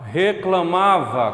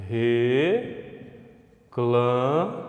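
First: Said in the usual way. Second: "Reclamava" very slow, re... cla... ma... va; four separate beats in "Reclamava", long gaps between; syllable by syllable. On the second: Shown as a demonstration. Teacher showing how the word divides, syllable by syllable. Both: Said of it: "Como é que fica?".

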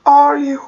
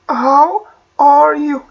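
First: Said in the usual way. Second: Drawn-out teaching model, very slow; slow model phrase. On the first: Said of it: "أوكي، how". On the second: Shown as a demonstration. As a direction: spell it out slowly for learners. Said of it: "أوكي، how are you؟". (ببطء شديد للتوضيح)

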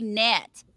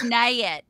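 First: Said in the usual way. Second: "nay it" drawled as two syllables; drawled mispronunciation. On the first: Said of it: "We say net". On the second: Shown as a demonstration. Texan showing what nobody says, "nay it" in two syllables. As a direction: stretch the vowel into "nay it". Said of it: "nobody says nay it".

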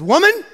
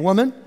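First: A sharp, loud, high call of woman. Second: Woman said calmly, not rude; just say woman kindly; gentle address. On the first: Jesus addressing the woman at the well, a sharp loud call. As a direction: bark woman like it's rude. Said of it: "he's not being rude". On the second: Jesus gently addressing the woman at the well, calm. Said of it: "he's just saying". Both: Shown as a demonstration.

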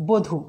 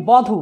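First: বধূ with closed "o" first vowel; pronounced with O. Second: বধূ with open "aw" first vowel; as written. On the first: Teacher giving the spoken form, বধূ with closed o. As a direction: say বধূ as "bo-dhu". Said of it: "কিন্তু উচ্চারণ করব". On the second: Teacher reading out the spelling, বধূ with open aw. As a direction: say বধূ as "baw-dhu". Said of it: "আমরা লিখি বধূ". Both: Shown as a demonstration.

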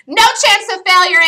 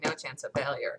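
First: "No chance of failure" shouted high and loud; excited declaration. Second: "No chance of failure" said softly, quoting himself; quiet self-quote. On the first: Real, not acted. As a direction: belt out "No chance of failure" with confidence. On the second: Retold or imitated. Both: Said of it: "every single time I say".

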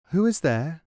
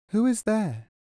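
First: Voice behind door. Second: Much higher inner voice asking, falling at the end; a raised voice behind the door asks again. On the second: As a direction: ask from within, lifted and gentle. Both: A narrator's reading.

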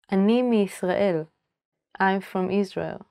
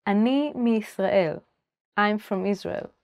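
The two takes are said the same way.

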